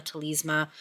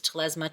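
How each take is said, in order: First: Telesma as "teh-LEEZ-muh", long ee in the middle; long-e pronunciation. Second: Telesma as "teh-LEZ-muh", short e in the middle; short-e pronunciation. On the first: Reviewer listing how people say it, Telesma as "teh-LEEZ-muh". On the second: Reviewer listing how people say it, Telesma as "teh-LEZ-muh". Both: Shown as a demonstration. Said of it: "everybody says it different".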